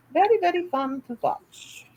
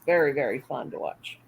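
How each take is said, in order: First: Repeated much higher, singsong. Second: Said in the usual way. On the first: Shown as a demonstration. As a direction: say it again up high and playful.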